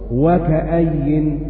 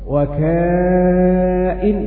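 First: It has a short vowel and a doubled 'y'. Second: It has a long vowel and no doubled 'y'. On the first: "وباقي القراء قرأوا وكأي" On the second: "مد متصل وحذف الياء"

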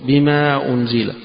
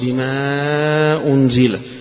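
First: The vowel before the glottal stop is held briefly. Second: The vowel before the glottal stop is held longer. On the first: "يقصر بما أنزل" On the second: "ويوسط بما أنزل"

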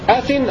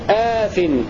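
First: The first vowel is short. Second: The first vowel is long. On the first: "بدون ألف بعد الهمزة" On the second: "بألف بعد الهمزة"

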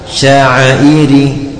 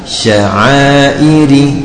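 First: The long vowel is held for one count. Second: The long vowel is held for two counts. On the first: "Kalau satu harokat" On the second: "Kalau dua harokat"

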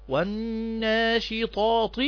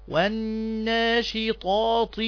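The two takes are said the same way.

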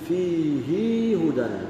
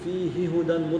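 First: The pronoun ends in a lengthened ee sound. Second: The pronoun's h merges into the next h. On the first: "يزيد فيها الضمير" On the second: "مدغما"

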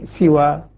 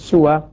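First: The first vowel is a front i sound. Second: The first vowel is a rounded u sound. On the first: "والباقون بالكسر" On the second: "يقرؤونها بالضم"

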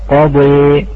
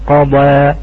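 First: The final vowel is tilted toward an e sound. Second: The final vowel is an open a sound. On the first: "في الإمالة" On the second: "كما هي"

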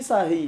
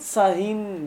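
First: The word ends in a short i vowel. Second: The word ends in an in sound. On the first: It means a specific command to be silent. "بكسرة واحدة" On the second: It means an indefinite silence, standing for a noun. "بالتنوين"

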